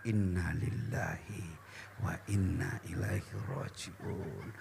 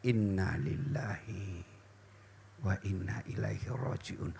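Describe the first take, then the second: First: Much softer, lower, slow murmur; quiet slow prayer murmur; soft recitation. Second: Much softer, lower, slow murmur; slow quiet prayer murmur; soft recitation. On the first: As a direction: murmur the verse under your breath. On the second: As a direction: murmur the verse while stroking your chest. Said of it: "Ucapkan innalillah, lalu usap dadamu". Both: Shown as a demonstration.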